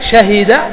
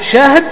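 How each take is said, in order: First: Open a after sh, i after h. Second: Open a after sh, no vowel after h.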